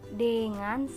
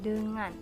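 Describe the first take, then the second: First: The first vowel is an open e sound. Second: The first vowel is a neutral schwa sound. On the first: The speaker calls it wrong. "Pelafalan E sebagai etaling" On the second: The speaker calls it right.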